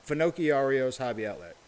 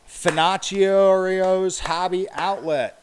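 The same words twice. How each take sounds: First: Said in the usual way. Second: Slow and loud, each syllable hit; clapped out syllable by syllable. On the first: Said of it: "It's spelled like Pinocchio". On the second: Shown as a demonstration. Reading a hard name to viewers, clapped out slowly. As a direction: sound it out slowly for the stream chat. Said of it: "Clap out the hard words".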